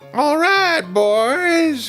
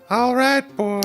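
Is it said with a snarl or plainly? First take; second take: snarl; plainly. First: It is said with a snarling voice. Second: It is said plainly, without a snarl.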